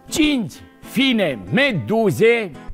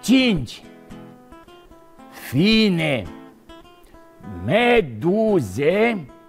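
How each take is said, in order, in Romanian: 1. Fraza este rostită într-un ritm rapid. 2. Fraza este rostită într-un ritm lent. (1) "am zis așa repejor" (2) "Îl spun mai rar"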